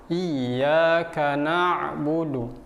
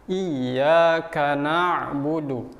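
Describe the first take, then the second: The two takes are said the same way.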